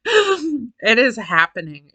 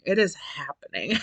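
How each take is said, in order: First: Slow, weighty, stress on it; slow emphatic. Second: Much softer, trailing, rising on is; softer echo. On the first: Telling viewers menopause has arrived, slow and emphatic. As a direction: lean into each word slowly. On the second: Repeating to viewers that it's here, resigned and soft. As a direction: let it drop to a resigned murmur. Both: Real, not acted.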